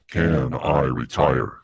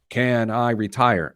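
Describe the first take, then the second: First: It is said in a dark, ominous voice. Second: It is said in his normal voice.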